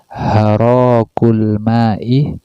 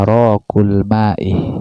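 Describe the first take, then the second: First: The phrase begins with an h sound. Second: The phrase begins with a glottal stop. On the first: "hamzahnya diganti ha, dibaca harakul ma'i" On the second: "Asalnya arakul ma"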